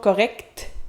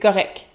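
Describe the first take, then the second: First: The final T is pronounced. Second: The final T is not pronounced. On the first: The speaker calls it wrong. "on dit pas correct" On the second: The speaker calls it right. "Notez qu'on ne prononce pas le T, on dit c'est correct"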